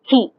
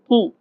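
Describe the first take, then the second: First: The k is released with a puff of air. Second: The k is released without a puff of air. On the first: "they'll say key in English" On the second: "They don't say key"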